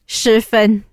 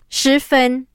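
First: The name is pronounced the English way. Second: The name is pronounced the Mandarin way. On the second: "Now I'm speaking in Mandarin here"

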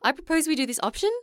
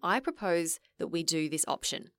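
First: The voice rises at the end. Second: The voice falls at the end.

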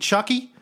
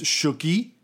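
First: It is said with an English accent. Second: It is said with a French accent.

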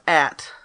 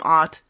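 First: The vowel is a short 'a' sound. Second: The vowel is an open 'ah' sound. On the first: This is the traditional pronunciation of the name. "kept the traditional pronunciation of At" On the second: This is the newer, changed pronunciation of the name. "started pronouncing their last name Ott"

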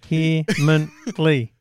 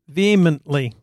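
First: The word is said with four syllables. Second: The word is said with three syllables. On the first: The speaker calls it wrong. "How many syllables in your telling of that word?" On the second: The speaker calls it right. "Why does it have to be three?"

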